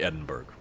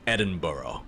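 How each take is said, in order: First: The ending is said the American way, not like borough. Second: The ending is said like the word borough. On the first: "I say it the American way" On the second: "as though it's borough"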